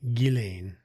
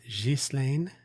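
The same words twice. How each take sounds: First: The name is said with British pronunciation. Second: The name is said with French pronunciation. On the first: "the British pronunciation, uh, British pronunciation uh, is indeed Ghislaine" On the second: "French would be Gil, Ghislaine"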